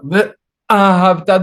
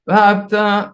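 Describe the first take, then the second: First: A glottal stop breaks the word after the first syllable. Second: The syllables run together without a glottal stop. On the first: The speaker calls it right. "Don't forget the aleph" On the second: The speaker calls it wrong. "People say vahabta"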